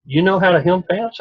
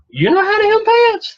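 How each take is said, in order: First: Mildly surprised question. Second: Much higher and louder, voice squeaking up in disbelief; astonished squeal. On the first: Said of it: "And she said". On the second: Roxana shrieks at Jeff in disbelief, high squeal. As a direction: squeal it like you can't believe a man can sew. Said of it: "And Roxana said". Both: Retold or imitated.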